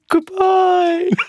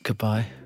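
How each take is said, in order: First: It is said as Ken Barlow's ghost. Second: It is said in a normal voice.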